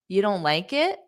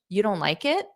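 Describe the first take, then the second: First: The voice rises at the end. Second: The same.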